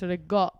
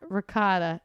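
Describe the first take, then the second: First: It is clipped, voiced, with the final vowel dropped. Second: It is said with standard English pronunciation.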